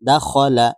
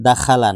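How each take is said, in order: First: No vowel is said between kh and l. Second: An extra vowel is said between kh and l. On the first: The speaker calls it right. "দা খ খ দাখলা" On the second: The speaker calls it wrong. "অনেকে এখানে কয়েকটা কমন ভুল করে থাকে"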